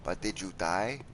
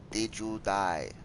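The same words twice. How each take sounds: First: Teasing question. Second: Slow teasing question. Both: Acted. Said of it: "teasing rhetorical".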